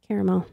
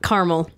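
First: The word is said with three syllables. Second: The word is said with two syllables. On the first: The speaker calls it right. "There's an extra A in there" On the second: The speaker calls it wrong. "Not caramel"

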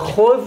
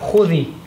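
First: The word ends on a bare consonant. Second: The word ends with an added 'i' vowel. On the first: "Whenever there's a سكون like خذ on the dal" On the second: "The sukun becomes a kasra only in the pronunciation"

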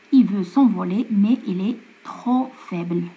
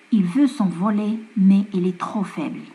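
No difference in how they are said.

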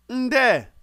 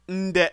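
First: The syllable ends without a glottal stop. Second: The syllable ends with a glottal stop.

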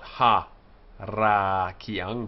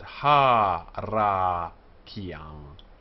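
First: The first vowel is short. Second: The first vowel is long. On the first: The speaker calls it wrong. "So not" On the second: The speaker calls it right. "because an open syllable that's not stressed will take the long vowel"

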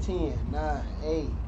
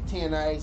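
First: The numbers are counted at a slow pace. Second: The numbers are counted at a fast pace. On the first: "I'm not counting like that" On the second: "I'm counting like a fucking maniac"

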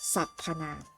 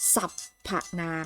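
First: The middle 'a' vowel is only half pronounced. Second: The middle 'a' vowel is pronounced fully. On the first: The speaker calls it right. "เราจะอ่านออกเสียงสระอะแค่ครึ่งเสียง" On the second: The speaker calls it wrong. "เราไม่อ่านว่า"

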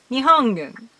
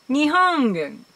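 First: The g is a soft nasal ng sound. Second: The g is a soft nasal ng sound.

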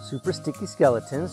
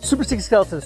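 First: It is said slowly. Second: It is said very fast.

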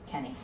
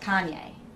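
First: The name is said like Kenny. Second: The name is said like Kanye. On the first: This is the local way of saying it. The speaker calls it wrong. "I'm from Ohio. We say Kenny. That's how we pronounce it" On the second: This is the way the name's owner wants it said. The speaker calls it right. "You pronounce my name [name]"

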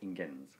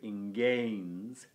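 First: The E in the second syllable is short. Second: The E in the second syllable is long. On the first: The speaker calls it wrong. "not ingens" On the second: The speaker calls it right. "it's a long E"

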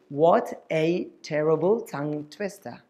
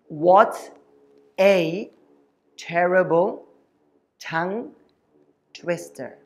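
First: The sentence is said fast. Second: The sentence is said slowly. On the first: "Can we say that a little faster with me" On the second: "I'm going to say slowly for you first"

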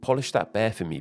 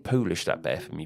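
First: The first vowel sounds like the vowel in 'hot'. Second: The first vowel sounds like the vowel in 'hole'. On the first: The speaker calls it right. "is still pronounced as polish" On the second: The speaker calls it wrong. "We don't say"

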